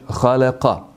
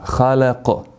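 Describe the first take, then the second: First: The word ends with a short vowel e. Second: The word ends on the consonant q. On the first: "završava sa fethom, sa e" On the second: "na toj riječi stajemo kao da je sukun"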